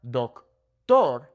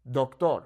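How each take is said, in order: First: Doctor slowly in split pieces, DOK, TOR; overweighted "doctor", syllables apart; wrong stress. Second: Doctor joined up as dok-tor; smooth Spanish "doctor", no split; natural Spanish emphasis. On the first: Teacher shows what to avoid, split heavy doctor. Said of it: "So it's not doctor". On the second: Teacher gives the correct take, joined Spanish doctor. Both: Shown as a demonstration.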